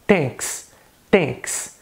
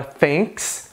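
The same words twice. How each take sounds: First: "thanks" starting with T for TH; Indian English accent. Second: "thanks" with a full TH, American English; American accent. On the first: Teacher showing the dropped TH, Indian accent. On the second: Teacher contrasting the TH, American accent. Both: Shown as a demonstration. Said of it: "no inglês indiano".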